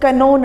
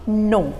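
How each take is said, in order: First: The word begins with a k sound. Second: The word begins with an n sound. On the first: The speaker calls it wrong. "इसको कनो नहीं बोलना है" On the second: The speaker calls it right. "इसको पढ़ेंगे हम नो"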